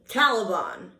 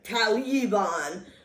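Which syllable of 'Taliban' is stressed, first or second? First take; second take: first; second. First: The stress is on the first syllable. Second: The stress is on the second syllable. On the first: The speaker calls it right. "the accent is on the first syllable" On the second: The speaker calls it wrong. "not the second"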